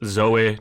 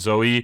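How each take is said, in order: First: The final E has an unusual sound. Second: The final E has a plain sound. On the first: The speaker calls it right. "I believe it's Zoe, I think the E has like a weird pronunciation at the end" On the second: The speaker calls it wrong. "not Zoe"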